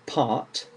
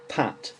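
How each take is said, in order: First: "part" with a long English AH; English "part", long open vowel and final T. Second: "pat" with a short A; English "pat", short A before a clear T; without the R. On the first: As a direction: say "part" with a lengthened vowel, R not sounded. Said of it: "with the R". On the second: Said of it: "without the R". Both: Shown as a demonstration.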